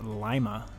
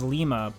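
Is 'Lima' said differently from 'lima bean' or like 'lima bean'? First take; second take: like bean; differently. First: It is said like 'lima bean'. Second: It is not said like 'lima bean'. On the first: The speaker calls it right. "It's actually pronounced Lima, like a lima bean" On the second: The speaker calls it wrong. "that says Lima"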